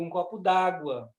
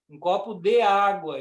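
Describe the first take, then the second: First: De and água are run together into one. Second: De and água are said as separate words.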